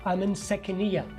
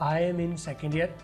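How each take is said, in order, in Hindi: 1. शब्द जुड़कर बोले जाते हैं और d नहीं बोला जाता। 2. हर शब्द अलग और पूरा बोला जाता है। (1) "इसका डी जो है साइलेंट कर दिया।" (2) "तो आई एम इन को मैं क्या बोलूँगा?"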